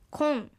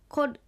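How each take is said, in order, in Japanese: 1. 「kor」は n の音で終わります。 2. 「kor」は r の音で終わります。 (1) "コルがコンと発音されたものです"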